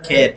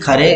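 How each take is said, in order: First: The surname is said as one syllable, Kher. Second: The surname is said with two syllables, Kha-re. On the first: This is the person's actual name. The speaker calls it right. "पर आपको बता दें, आपको याद रखने के लिए बाल Gangadhar खेर" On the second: This is how most people say it. The speaker calls it wrong. "अधिकांश लोग बीजी खरे अ, का उच्चारण करते हैं"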